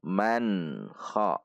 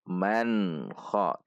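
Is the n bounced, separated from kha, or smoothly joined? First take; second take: joined; joined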